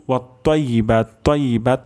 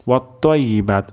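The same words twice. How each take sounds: First: ওয়াত্তাইয়িবাত with a light t; wrong thin ta. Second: ওয়াত্তাইয়িবাত with a thick, full t; heavy ta. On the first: Teacher warns it becomes ta, thin t. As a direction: say the t thin in তাইয়িবাত. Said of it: "তাহলে কিন্তু তা হয়ে যাবে". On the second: Teacher shows the ta to be pronounced, heavy t. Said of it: "ত উচ্চারণ করতে হবে". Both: Shown as a demonstration.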